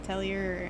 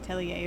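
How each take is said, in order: First: The word is said in a plain everyday way. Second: The word is said in a fancy, French-like way.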